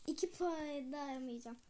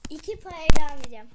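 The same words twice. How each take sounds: First: Said in the usual way. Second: Loud, fast spiteful shout. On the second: Real, not acted. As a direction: yell it at the other player.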